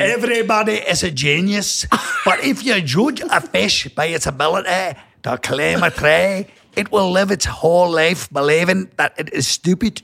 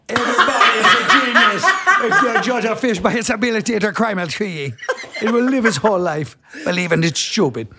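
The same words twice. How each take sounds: First: Attempted Scottish accent, reading a quote; hammy Scottish reading. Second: Higher-pitched, badly faked Jamaican accent; comic Jamaican attempt that slips into Irish. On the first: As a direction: read it in a broad put-on Scottish accent. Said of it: "What about Scottish?". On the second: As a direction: put on a lilting, wobbly Jamaican accent. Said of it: "I want a damn Jamaican accent". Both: Shown as a demonstration.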